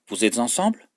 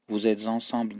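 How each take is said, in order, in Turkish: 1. Vurguyla, soru gibi söyleniyor. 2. Düz, sade bir cümle gibi söyleniyor. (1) "Hepsinde vurgu var" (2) "Vous êtes ensemble değil"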